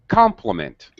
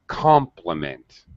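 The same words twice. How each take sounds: First: Compliment is said with high, prominent pitch. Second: Compliment is said with low, lowered pitch. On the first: "Normally we say compliment" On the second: "My my stress changes from high to low"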